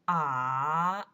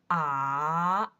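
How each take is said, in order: First: The pitch dips low and then rises. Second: The pitch dips low and then rises.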